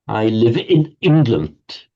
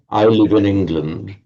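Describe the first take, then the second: First: The words sound separated in a German way. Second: The words run smoothly together like native English. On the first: "How the Germans do it" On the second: "she couldn't say"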